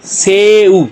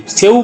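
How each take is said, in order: First: "से उ" drawn out, both vowels held; syllable by syllable. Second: Said in the usual way. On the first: Shown as a demonstration. Teacher answering what it makes, "से उ" slowly sounded out. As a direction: stretch "से" into a separate "उ". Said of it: "तो क्या बन गया जी". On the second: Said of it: "किसे कहते हैं".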